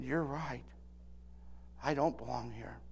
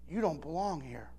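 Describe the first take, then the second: First: Much softer, tearful whisper of a reply; choked-up admission. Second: Hushed, gentle low line; bartender's soft rebuke. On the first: Preacher tearfully admits to the bartender he doesn't belong, broken and soft. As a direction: barely get it out through tears. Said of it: "I started to cry". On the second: Bartender quietly tells the young preacher he doesn't belong, hushed. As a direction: say it softly, like a kind warning. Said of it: "and then she said this". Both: Retold or imitated.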